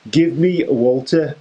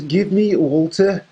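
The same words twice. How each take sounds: First: Put-on Pete Dunne's line slipping into a Scouse accent; a failed Brummy attempt that comes out Liverpool Scouse; accidental Scouse. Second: Put-on a higher, light Birmingham Brummy accent; the wrestler's line finally landed in Brummy; Pete Dunne in Brummy. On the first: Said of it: "Now that sounded Scouse". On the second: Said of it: "We got it, Brummy".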